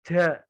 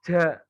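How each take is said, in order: No difference in how they are said.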